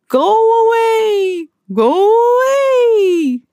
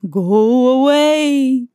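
First: Much higher, slow, louder wailing ghost moan; slow, high, loud spooky wail; rising ghostly moan. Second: Slow, drawn-out spooky moan; slow eerie ghost moan; ghostly moan. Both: A narrator's reading. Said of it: "the ghosts moaned".

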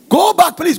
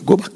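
First: Sharp, high, loud command; an angry mother throwing her daughter out; mock shouted order. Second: Said in the usual way. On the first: Mother sends daughter home.

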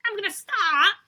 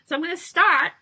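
First: High, loud teasing echo; mock announcer voice. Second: High, loud grand opener; announcing. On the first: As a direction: parrot her in a big announcer voice. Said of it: "echoes her announcement". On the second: Real, not acted. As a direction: kick it off like an announcement. Announcing the diary reading.

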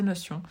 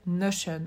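First: "Notion" in French, no-syon; French pronunciation. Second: "Notion" said the American English way, NO-shun; American pronunciation. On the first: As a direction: say "Notion" with "s-yon", nasal French ending. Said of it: "un peu à la française". (« Notion » à la française, « no-sion ») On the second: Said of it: "je le prononce plus à l'américaine". (« Notion » prononcé à l'américaine, « nocheune ») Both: Shown as a demonstration.

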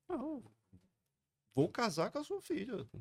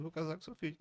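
First: Much higher, earnest promise to the father; eager high reply. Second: Said in the usual way. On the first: Retold or imitated. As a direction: pitch it up, eager to convince. He answers the father, retold.

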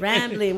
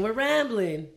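First: Said in the usual way. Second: Loud. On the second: Real, not acted. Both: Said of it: "That was loud, sorry".

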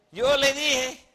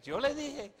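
First: Loud, high mock scolding; I-told-you-so. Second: High, softer sing-out; mock I-told-you-so. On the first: Sara scolding Abraham over Lot, loud I-told-you-so. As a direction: crow it loudly, pitched up. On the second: Quoting what women say, softer mock I-told-you-so. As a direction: quote the catchphrase high and small.

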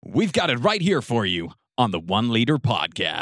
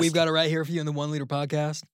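First: Loud American announcer; punchy American podcast intro; American accent. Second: Relaxed, run-together American intro; easygoing American host; casual American accent. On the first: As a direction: sell it in a big American accent. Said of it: "I could do the American accent". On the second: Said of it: "make it a bit more casual". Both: Shown as a demonstration.

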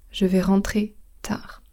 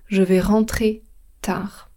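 No difference in how they are said.

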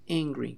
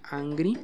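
First: "angry" starting with an "e" sound, ENG-gree, falling; "angry" with an English first vowel, voice dropping at the end; correct English pronunciation. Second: "angry" with an open Spanish "a", AHN-gree, rising; "angry" misread with an "ah" first vowel; wrong Spanish-style pronunciation. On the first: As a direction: say "angry" as if its first letter were an E. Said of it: "sino se pronuncia angry". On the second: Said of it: "no se pronuncia angry". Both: Shown as a demonstration.

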